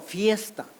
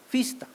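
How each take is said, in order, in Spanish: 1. La primera sílaba tiene el diptongo ie. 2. La primera sílaba tiene una sola vocal i. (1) "Las palabras como fiesta" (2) "pronuncianse como fista"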